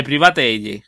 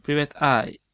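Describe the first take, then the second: First: "Private Eye" read as Spanish letters, pri-BA-te YE; "Private Eye" spelled out Spanish style, pri-va-te-ye. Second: "Private Eye" said the English way, PRAI-vet AI; "Private Eye" in English sounds, ending in "ai"; English pronunciation. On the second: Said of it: "de Private Eye". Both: Shown as a demonstration.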